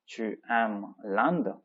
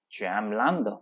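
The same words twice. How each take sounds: First: Slow, word-by-word model reading; each word drawn out and separated; slow repetition. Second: Said in the usual way. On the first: Shown as a demonstration. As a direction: repeat it slowly for language learners. Teacher repeats the line slowly for learners.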